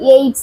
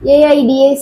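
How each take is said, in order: First: It is spoken as a single one-syllable word. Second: Each letter is spoken separately, one by one. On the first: The speaker calls it right. "ஒரு வேர்டாவே pronounce பண்ணுவோம்" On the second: The speaker calls it wrong. "ஏஐடிஎஸ் அப்படின்னு சொல்ல மாட்டோம்"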